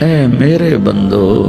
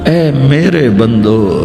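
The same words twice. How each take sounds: The two takes are said the same way.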